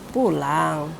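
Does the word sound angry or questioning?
questioning. The word is said doubtfully, like a question. The speaker doubts someone really wants to go home. "berarti dia bertanya, meragukan"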